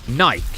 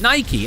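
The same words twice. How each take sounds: First: The final E is silent. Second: The final E is sounded.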